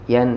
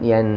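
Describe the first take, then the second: The two takes are said the same way.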